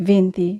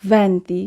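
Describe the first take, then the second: First: ভেন্তি said with i, as "VIN-ti"; wrong "vinti". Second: ভেন্তি with open e, "VEN-ti"; correct "venti". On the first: Teacher quotes learners' slip on twenty, ভেন্তি said as "vinti". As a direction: narrow the first vowel of ভেন্তি to i. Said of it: "এটি আসলে ভুল উচ্চারণ". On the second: Teacher models Italian twenty, ভেন্তি with clear "VEN". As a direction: open the first vowel of ভেন্তি to e. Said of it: "আমরা উচ্চারণ করব". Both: Shown as a demonstration.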